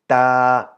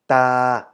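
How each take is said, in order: First: The pitch stays level at middle height. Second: The same.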